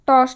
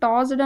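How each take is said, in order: First: The word ends with a t sound. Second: The word ends with a d sound. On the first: The speaker calls it right. "టాస్ట్ అని చదువుతాం" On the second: The speaker calls it wrong. "టాస్డ్ అని కాకుండా"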